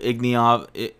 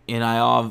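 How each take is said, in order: First: The name is said with a g sound. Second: The name is said without a g sound. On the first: The speaker calls it wrong. "I've always said that wrong" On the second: The speaker calls it right. "There's no G"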